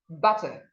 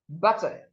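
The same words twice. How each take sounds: No difference in how they are said.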